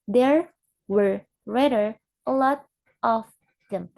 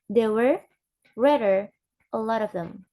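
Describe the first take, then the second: First: Each word is said separately and fully. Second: The words run together faster with reduced vowels. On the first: "When we are said this word one by one, it becomes like this" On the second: "native speakers say this kind of phrase or sentences, they will say like this"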